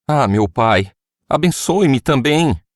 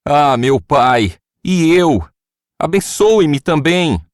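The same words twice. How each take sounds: First: Pleading. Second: High, loud, slow bitter plea; bitter cry. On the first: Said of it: "Esaú suplicou". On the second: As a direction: cry out to his father in anguish, much higher and louder. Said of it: "soltou um forte grito amargurado e suplicou". (grito amargurado e suplicante, agudo e forte) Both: A narrator's reading.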